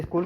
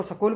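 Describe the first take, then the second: First: Said in the usual way. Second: स्कूल with a short vowel slipped between s and k; common mispronunciation. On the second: Shown as a demonstration. Teacher showing students a common slip, स्कूल mispronounced as "sakool". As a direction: say स्कूल as "sa-kool", splitting the opening cluster. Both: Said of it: "स्कूल को स्कूल बोलते हैं ना".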